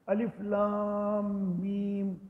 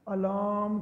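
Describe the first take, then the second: First: Each letter name is said separately. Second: The letters are run together as one word. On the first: The speaker calls it right. "तीनों हरफ अलग अलग पढ़ने हैं" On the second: The speaker calls it wrong. "इकट्ठा नहीं पढ़ देना"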